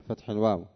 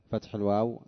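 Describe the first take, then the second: The two takes are said the same way.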